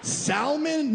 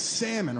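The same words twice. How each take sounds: First: "salmon?" with the L said aloud, higher; "salmon?" with a clear L, mocking the date's pronunciation; sounded L. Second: "salmon" said sam-mon, no L; "salmon" correctly, with the L left out; silent L. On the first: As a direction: say "salmon?" as sal-mon with a clear L. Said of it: "pronounce the L in salmon". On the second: Shown as a demonstration. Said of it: "It's salmon".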